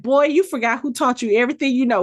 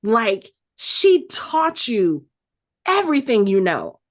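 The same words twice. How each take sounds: First: Fast, sassy put-down from a mother; quick mock scold; scolding comeback. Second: Very slow, leaning hard on "she taught you"; emphatic, slowed-down reminder; stressed point. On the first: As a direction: remind the boy who's boss. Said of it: "she was like". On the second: Real, not acted. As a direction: drag out "she taught you" then drop on "everything you know". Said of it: "And Bagra is sitting right there".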